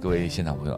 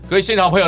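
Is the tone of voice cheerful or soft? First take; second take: soft; cheerful. First: The voice is soft, gentle and subdued. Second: The voice is bright, cheerful and upbeat. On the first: The speaker sounds like they have no future or hope. The speaker calls it wrong. "用刚才温柔的声音可能又不行了" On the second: The speaker sounds fittingly joyful and inspiring. The speaker calls it right. "反而是用刚刚我们讲说那开朗的语调"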